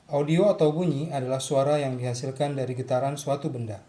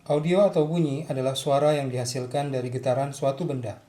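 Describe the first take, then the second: Both takes have the same delivery.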